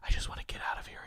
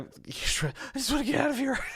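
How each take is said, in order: First: It is said in a quiet whisper. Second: It is said in a full, urgent voice. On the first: The speaker is bored at a social event. "I whispered to my dinner companion" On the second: The speaker is in a life-or-death situation. "Just say it like that"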